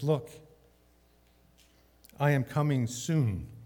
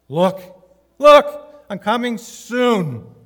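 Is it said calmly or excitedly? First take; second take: calmly; excitedly. First: It is said calmly, without excitement. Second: It is said excitedly, as an exclamation.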